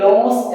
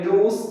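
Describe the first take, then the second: First: The vowel sounds like 'oh'. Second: The vowel sounds like 'oo'. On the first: The speaker calls it wrong. "Students കാര്യമായിട്ട് ഇത് ലോസ് എന്നാണ് വായിക്കാറ്. പക്ഷെ തെറ്റാണ്" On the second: The speaker calls it right. "Correct ആയിട്ട് pronounce ചെയ്യേണ്ടത് ലൂസ് എന്നാണ്"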